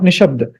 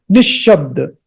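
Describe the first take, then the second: First: Nishabda with one short sh, no stress on it; don't double the sh in Nishabda; single unstressed sh. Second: Nishabda with a half sh leading into a full, stressed sh; stressed double sh. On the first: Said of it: "not Nishabda". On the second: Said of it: "Little bit stress because of two shas". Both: Shown as a demonstration.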